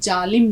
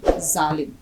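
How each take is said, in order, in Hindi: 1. शब्द की शुरुआत j की आवाज़ से होती है। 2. शब्द की शुरुआत z की आवाज़ से होती है।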